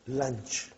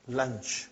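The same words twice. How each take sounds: The two takes are said the same way.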